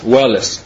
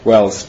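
First: The name is sounded out as written, two syllables. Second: The name is said with English pronunciation, one syllable. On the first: "если буквам пишется Уэллес" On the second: "по английской фонетике Уэльс"

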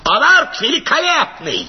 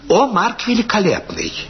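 First: It is shouted in a throaty, bleating voice. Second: It is mumbled quietly.

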